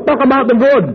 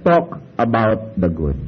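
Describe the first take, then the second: First: Emphatic motto. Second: Slow quiet motto. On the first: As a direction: talk about the good, higher and louder, with TALK stressed and a falling end. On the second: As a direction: talk about the good said slowly and softly, with a falling end. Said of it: "Kaya sabi". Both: Shown as a demonstration.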